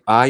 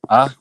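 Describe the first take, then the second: First: The vowel glides like 'eye'. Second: The vowel is a flat 'ah'. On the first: "we didn't really say I" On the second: "we say like ah"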